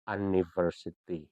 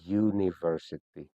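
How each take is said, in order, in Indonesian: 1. Diawali dengan bunyi vokal biasa. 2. Diawali dengan bunyi 'y'. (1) "bukan university" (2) "tapi university ... kayak ada huruf Y"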